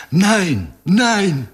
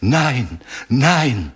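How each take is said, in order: First: Thin high wail of pain; plaintive cry. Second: Moaning whisper. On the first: German woman with her wrist crushed, high plaintive cry. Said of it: "жалобно вскрикнула". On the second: German woman cornered at the wall, subdued moaning plea. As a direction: moan it with understated dread. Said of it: "повторяла стонущим шёпотом". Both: A narrator's reading.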